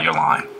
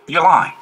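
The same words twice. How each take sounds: First: Said in the usual way. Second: "You're lying." jumps higher and louder on "lying"; calling out a liar. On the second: Pretend. Calling out someone who lies, a loud sharp accusation. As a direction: bark "You're lying." right back at them. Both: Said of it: "I'm like".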